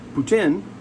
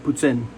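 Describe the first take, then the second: First: The middle consonant is a plain t sound. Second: The middle consonant is a ts sound. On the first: The speaker calls it wrong. "also accepted, but it's not right" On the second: The speaker calls it right. "like a T and an S put together"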